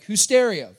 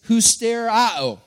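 First: The word sounds like English 'who's stereo'. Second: The final 'ao' syllable carries the stress. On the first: "it's like, who's stereo?" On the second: "Properly pronounced, it's husterao, with the accent on the end"

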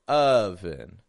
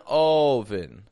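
First: The first vowel is an unrounded short u. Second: The first vowel is a rounded o. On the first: The speaker calls it right. "I'm not making my lips round" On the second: The speaker calls it wrong. "I'm not going oven"

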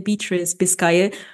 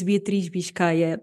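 First: The name is said with English sounds. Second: The name is said with Portuguese sounds. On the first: "normally I say Beatriz Biscaia because it's, you know, a little bit easier to pronounce" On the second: "That's the literally the Portuguese name, the Portuguese way of pronouncing it"

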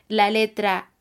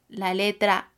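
No difference in how they are said.

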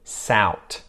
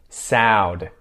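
First: The word ends with a t sound. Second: The word ends with a d sound. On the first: "and then a T sound" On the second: "then a D sound"

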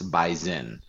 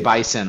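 First: The middle consonant is a z sound. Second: The middle consonant is an s sound. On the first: The speaker is from the local area. The speaker calls it right. "you will pronounce it with a Z, even though it's spelled with an S" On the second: The speaker is not from the local area. The speaker calls it wrong. "Can say bison all you want, but we're going to know you're not from here"

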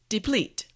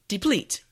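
The two takes are said the same way.

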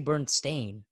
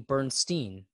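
First: The name ends with a 'stain' sound. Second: The name ends with a 'stein' sound. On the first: The speaker calls it wrong. "I don't say Bernstein" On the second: The speaker calls it right. "I say Bernstein"

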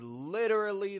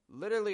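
First: The word is said slowly with strong emphasis. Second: The word is said quickly with little emphasis. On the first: It expresses a strong, sincere feeling. "the same emphasis as I did when I said" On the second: It is a strong feeling but not exactly true. "how quick I make the word literally there"

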